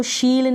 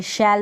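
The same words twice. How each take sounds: First: शील with a long ee vowel; wrong pronunciation. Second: Said in the usual way. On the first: Shown as a demonstration. Teacher shows the misreading of shell, mispronounced शील. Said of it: "इसको शील नहीं पढ़ेंगे". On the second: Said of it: "शैल पढ़ेंगे".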